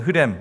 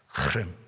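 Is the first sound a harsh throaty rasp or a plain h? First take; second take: plain h; harsh rasp. First: It starts with a plain, soft h sound. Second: It starts with a harsh, rasping throat sound. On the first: "그냥 쉽게 그냥 하렘 혹은 흐렘 이렇게 여러분 우리말로는" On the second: "이렇게 거친 소리로 하도 아니고 흐도 아니고 카도 아니고 크도 아닌 그런 소리"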